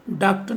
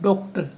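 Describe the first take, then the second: First: डॉक्टर said "daaktar" with a flat a; wrong pronunciation. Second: डॉक्टर said with ऑ, "doktar"; correct pronunciation. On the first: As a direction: demo the wrong डॉक्टर with open a. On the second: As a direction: demo the right डॉक्टर with rounded o. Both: Shown as a demonstration. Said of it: "उच्चारण भी अ और ओ के बीच होगा".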